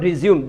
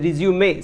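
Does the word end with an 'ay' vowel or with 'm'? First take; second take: m ending; ay ending. First: The word ends on a plain m sound. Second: The word ends with an added ay vowel. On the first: The speaker calls it wrong. "That is not रिज्यूम" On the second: The speaker calls it right. "That is रिज्यूमे"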